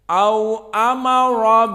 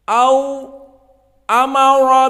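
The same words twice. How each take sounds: First: Au and amara run together without any pause. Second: A short silent pause separates au and amara. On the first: "Abu Amr di sini tidak mempermasalahkan Hamzah. Dibaca sama au amara" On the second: "dijadikanlah khalaf yatakhallas min Hamzah dengan as-sakt. Maka disakt dua tiga detik"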